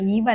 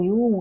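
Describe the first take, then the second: First: The word sounds like 'eev' with a final v. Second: The word sounds like 'yoo' with no final v. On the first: The speaker calls it wrong. "ഈവ് അല്ല" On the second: The speaker calls it right. "പക്ഷെ ഇത് ശരിക്കും pronounce ചെയ്യേണ്ടത് എങ്ങനെയാണ്, യു എന്നാണ്"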